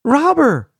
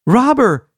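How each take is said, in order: First: High, loud call for help; yelling. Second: High, loud alarm yell. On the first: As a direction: keep yelling the alarm. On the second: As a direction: shout for help across the road. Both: A narrator's reading. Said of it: "he yelled".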